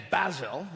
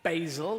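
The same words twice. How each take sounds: First: "basil" as BAZ-ul; short a in "basil"; British pronunciation. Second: "basil" as BAY-zul; long ay in "basil"; American pronunciation. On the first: Comic giving the British word, "basil" as BAZ-ul. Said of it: "we say basil". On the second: Comic showing Americans their word, "basil" as BAY-zul. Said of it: "you say". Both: Shown as a demonstration.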